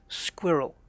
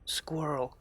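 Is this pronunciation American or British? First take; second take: British; American. First: It is said in a British accent. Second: It is said in an American accent. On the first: "we we've got the rel at the end" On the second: "Where in America it's more like squirrel"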